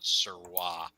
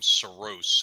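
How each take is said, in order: First: The surname is given a non-anglicized pronunciation. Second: The surname is given an anglicized pronunciation. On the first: This is how others assumed the name was said. The speaker calls it wrong. "and not Sirwa" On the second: This is how the owner of the name says it. The speaker calls it right. "Justin pronounces his last name Saros"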